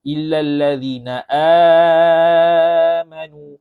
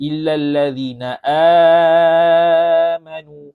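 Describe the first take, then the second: First: The long vowel in amanu is held moderately long. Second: The same.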